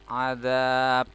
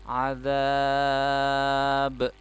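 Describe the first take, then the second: First: The final b stops flat without a bounce. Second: The final b is released with a bounce. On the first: The speaker calls it wrong. "jadi tidak boleh dibaca azab, nah, itu nggak memantul ya" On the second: The speaker calls it right. "tapi harus dipantulkan"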